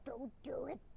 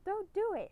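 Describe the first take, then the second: First: It is said in a low, raspy voice. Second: It is said in an ordinary voice.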